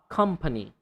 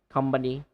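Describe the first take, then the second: First: The middle consonant is an unvoiced P. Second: The middle consonant is a voiced B. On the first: The speaker calls it right. "pa, pa" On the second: The speaker calls it wrong. "Not company"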